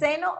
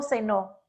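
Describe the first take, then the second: First: "ceno" stressed on CE, higher and rising; first-syllable stress. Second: "cenó" stressed on final Ó, then falling; final-syllable stress. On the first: Teacher contrasts present with past, stressing CE in "ceno". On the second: Teacher contrasts past with present, stressing final NÓ in "cenó". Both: Shown as a demonstration. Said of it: "si lleva el tilde".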